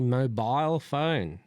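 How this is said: It is said in a British accent.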